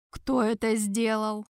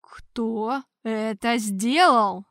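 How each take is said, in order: First: Slow, icy, level demand; inquisitor's cold demand; cold question. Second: Slow, louder, stern demand; hard repeat. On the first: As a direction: ask coldly, each word weighed. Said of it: "холодно спросил Тарквимада". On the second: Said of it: "жёстко повторил Тарквимада". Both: Acted.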